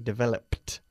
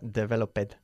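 First: The ending is a plain t sound. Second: The ending is an extra id syllable. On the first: The speaker calls it right. "we say developed" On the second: The speaker calls it wrong. "y nunca developed"

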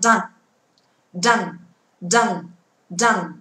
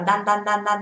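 First: The d bursts out with a strong puff of air. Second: The d is soft, with no burst of air. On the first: The speaker calls it right. "mà đọc là dan dan dan dan" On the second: The speaker calls it wrong. "Không đọc là đan đan đan đan"

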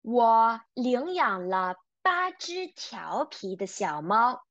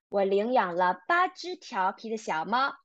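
First: It is said at a normal pace. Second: It is said at a faster pace.

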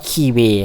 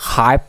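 First: The name is pronounced with a Portuguese reading. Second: The name is pronounced with an English reading. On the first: "ถ้าเป็นภาษาโปรตุเกสอ่านว่า" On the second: "ถ้าเป็นภาษาอังกฤษมันอ่านว่า"

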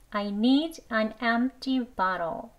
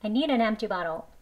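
First: The sentence is spoken slowly. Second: The sentence is spoken a bit faster. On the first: "천천히 두번 해볼게요" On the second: "조금 빨리 해볼게요"

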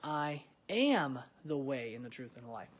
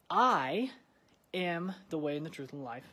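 First: The word "am" is stressed. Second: The word "I" is stressed.

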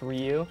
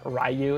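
First: The first part does not sound like 'rye'. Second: The first part sounds like the word 'rye'. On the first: The speaker calls it right. "it's Ryu" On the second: The speaker calls it wrong. "R-Y-U is not Ryu"

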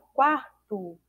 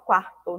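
First: The final vowel sounds like a short 'u'. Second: The final vowel sounds like a clear 'o'. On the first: The speaker calls it right. "A gente fala quarto" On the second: The speaker calls it wrong. "A gente não fala quarto"

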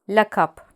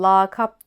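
First: The first A is kept short. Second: The first A is drawn out long. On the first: The speaker calls it right. "Doğrusu lakap" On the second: The speaker calls it wrong. "A'nın uzatılmasına ... söylemiyoruz"

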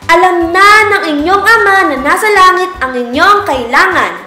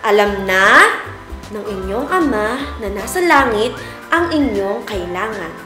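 First: It is spoken in a loud voice. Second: It is spoken at a normal volume. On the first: "tatlo, ibig sabihin malakas na boses" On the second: "ang gagamitin natin ay ang normal na boses natin"

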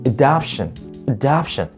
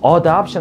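First: The first vowel is weak and barely pronounced. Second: The first vowel is pronounced fully and precisely. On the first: The speaker calls it right. "아주 약하게 뭐, 으로 발음하셔도 상관없거든요" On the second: The speaker calls it wrong. "너무 adoption 하시지 할 필요는 없다라는 거예요"

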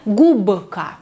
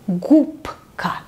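First: The consonant before k is a voiced b. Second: The consonant before k is a voiceless p. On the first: The speaker calls it wrong. "Не губка" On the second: The speaker calls it right. "это мы тоже должны читать как глухой звук"

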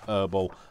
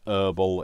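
First: It is said the British way. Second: It is said the way other regions say it. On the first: "in the UK, we pronounce it Herbal" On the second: "it's Herbal in some parts of the world"

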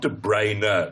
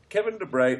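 First: The name ends with an extra vowel sound. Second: The name ends like the word brain. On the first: The speaker calls it wrong. "It's not De Bruyne because there's an E on the end" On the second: The speaker calls it right. "It's the most simple pronunciation possible, as in brain"

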